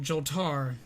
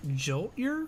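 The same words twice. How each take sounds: First: Joltar with an open "-tar" ending; second guess at Joltar, ending in "ar"; alternative name pronunciation. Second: Joltier with the ending like "-ee-er", rising as a question; questioning guess at Joltier; tentative name pronunciation. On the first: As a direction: try Joltar, drawing out the final "tar". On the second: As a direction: try out Joltier, pitch lifting at the end. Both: Real, not acted. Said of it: "If I have mispronounced your name".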